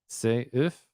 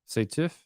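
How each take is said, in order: First: No T sound is heard between the words. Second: A T sound links the two words. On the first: The speaker calls it right. "still be seuf" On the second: The speaker calls it wrong. "not instead of seteuf"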